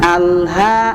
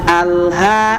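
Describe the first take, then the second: Both takes have the same delivery.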